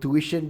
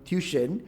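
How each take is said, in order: First: It has the standard English pronunciation. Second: It has the Malay pronunciation, like tusyen. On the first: "a bastardized English word from tuition" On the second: "become tuition"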